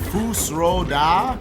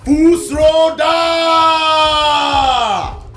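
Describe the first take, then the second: First: It is said at normal reading volume. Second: It is shouted as loud as possible.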